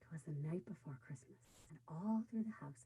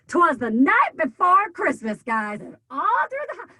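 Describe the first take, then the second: First: It is told with an air of mystery. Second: It is told with excitement.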